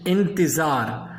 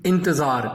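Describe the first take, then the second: First: انتظار said slowly as intizaar, with a clear i after the t and a full final r; correct pronunciation. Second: انتظار said as intezaa, with a short plain middle vowel and a dropped final r; the everyday wrong way, انتظار run together as intezaa; common mispronunciation. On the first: Urdu teacher giving students the correct انتظار slowly. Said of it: "انتظار نہیں ہے". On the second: Urdu teacher showing students the common wrong انتظار. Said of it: "ہم عام طور پہ کیا کہتے ہیں". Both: Shown as a demonstration.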